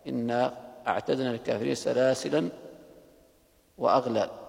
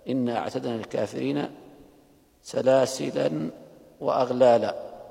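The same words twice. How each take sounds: First: Salasil ends on a bare 'l' sound. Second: Salasil ends with a long 'a' vowel. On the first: "ووقف غيره كحمزة رحمه الله بلا ألف" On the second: "فوقف أبو عمرو بالألف"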